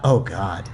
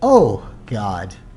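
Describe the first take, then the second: First: It sounds like an exasperated, dismissive groan. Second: It sounds like sincerely calling out to God.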